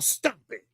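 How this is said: It is said in a posh, upper-class put-on voice.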